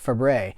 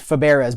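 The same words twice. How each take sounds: First: The name is pronounced differently from its spelling. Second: The name is pronounced the way it is spelled. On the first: The speaker calls it right. "but you pronounce it Fabares" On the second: The speaker calls it wrong. "it's written Fabares"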